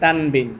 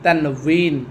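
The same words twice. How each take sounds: First: The second syllable starts with a b sound. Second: The second syllable starts with a w sound. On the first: This is the everyday Bengali way of saying it. "বাংলাতে বলে তানবিন" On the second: This is the Arabic way of saying it. "আরবিতে উচ্চারণ হচ্ছে কি তানবিন তান"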